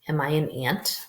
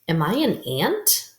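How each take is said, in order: First: The voice falls at the end. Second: The voice rises at the end. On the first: It does not sound like a question. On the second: It is asked as a question.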